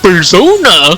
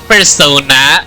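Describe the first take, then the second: First: It is said in a Goofy cartoon voice. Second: It is said in her normal voice.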